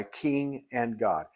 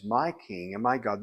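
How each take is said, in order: First: Said in the usual way. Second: "my" stressed before king and God. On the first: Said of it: "He doesn't say". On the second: Shown as a demonstration. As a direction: mark the possessive "my" both times. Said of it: "He says".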